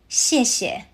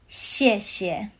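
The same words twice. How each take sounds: First: The word is said at ordinary conversational speed. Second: The word is said slowly and drawn out. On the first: "Now at a natural speed" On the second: "Say it with me slowly"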